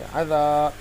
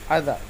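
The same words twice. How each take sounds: First: The final vowel is drawn out long. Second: The final vowel is short and quick. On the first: "अब हम इसको जल्दी नहीं पढ़ेंगे बल्कि खींच कर पढ़ेंगे" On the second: "जल्दी पढ़ेंगे"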